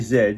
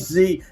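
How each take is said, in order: First: The letter is said as zed, Australian-style. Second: The letter is said as zee, American-style.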